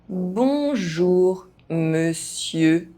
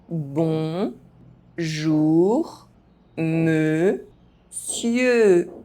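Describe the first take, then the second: First: The phrase is spoken at normal pace. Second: The phrase is spoken very slowly. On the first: "at a normal pace" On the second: "very slowly"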